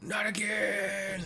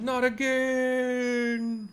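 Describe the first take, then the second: First: Gentler hammed-up defeat; second villain wail. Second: Very high, slow, drawn-out howl of defeat; hammed-up defeated villain; villain's wail. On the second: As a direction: wail it out as the robot explodes. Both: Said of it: "Sorry, that's probably better".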